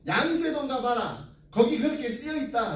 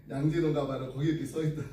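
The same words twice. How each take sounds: First: Retold Gyeongsang reply with a strong lilt; Gyeongsang dialect. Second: Said in the usual way. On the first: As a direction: act the friend's blunt Gyeongsang answer, pitched up. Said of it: "이게 어디 사투리인가요? 경상도인가요?".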